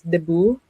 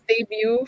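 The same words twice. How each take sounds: First: Debut is said with the local Filipino pronunciation. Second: Debut is said with the usual English pronunciation. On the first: "but we pronounce it as debut" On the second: "spelled as debut for anyone who's not Filipino watching"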